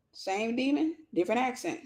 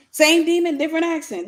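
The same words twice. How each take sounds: First: Softly dropped wry aside; quiet aside. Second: High, laughing punchline; amused exclamation. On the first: Woman on her ex from Cameroon, quiet wry aside. Wry first take, then repeated laughing. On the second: Woman laughing at her own past mistake, high amused exclamation. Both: Real, not acted.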